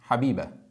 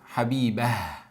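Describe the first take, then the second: First: The word ends on a plain a vowel. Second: The word ends with an audible h sound. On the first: This is how it is said in everyday speech. "In the real life, we don't say it like that. We say it just Habiba" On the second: This is how it is read when stopping in the Quran. "In the Quran, we say Habibah"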